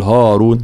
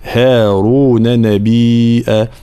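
First: "هارون" with a thick, dark haa; wrong heavy ha. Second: Slow chant, thin front a in "هارون"; correct light ha. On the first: (هارون بتفخيم الهاء خطأً) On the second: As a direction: recite "هارون نبيا" long, with light haa. (ترتيل هارون بترقيق الهاء) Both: Shown as a demonstration. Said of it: "لا نقول هارون، لا".

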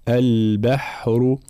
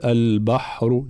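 First: Slow البحر with a thin, fronted "bah"; light ba and ha. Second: البحر wrongly said with a thick, dark "bah"; heavy ba and ha. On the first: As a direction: keep ب and ح light in a drawn-out البحر. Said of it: "ترقيق الباء والحاء". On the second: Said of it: "ترقيق الباء والحاء، لا نقول". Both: Shown as a demonstration.

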